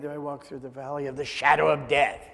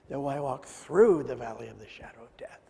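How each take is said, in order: First: The stress falls on the words shadow of death. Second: The stress falls on the word through. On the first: The focus is on the danger itself. The speaker calls it wrong. "so many times I've heard it read wrongly. As if it's all about the shadow of death" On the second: There is another side that can be reached. The speaker calls it right. "But the word that's important is through"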